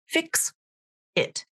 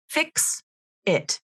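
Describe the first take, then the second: The two takes are said the same way.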